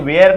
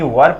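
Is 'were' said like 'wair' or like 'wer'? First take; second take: wair; wer. First: The vowel glides, sounding like 'wair'. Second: The vowel is short, sounding like 'wer'. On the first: The speaker calls it wrong. "इसे वेयर नहीं" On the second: The speaker calls it right. "वर पढ़ना हमेशा"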